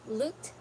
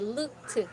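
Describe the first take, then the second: First: The ending is a soft, voiceless t sound. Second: The ending is not a soft t sound. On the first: The speaker calls it right. "It's just soft" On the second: The speaker calls it wrong. "Don't say looked"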